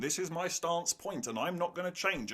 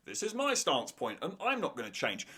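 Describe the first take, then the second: First: Softer, flat stubborn imitation; mock a character digging in; stubborn mock quote. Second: Softer, weary repetition of the same stand; stubborn mock quote repeated. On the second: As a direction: say it again, just as stuck. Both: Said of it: "characters repeating themselves".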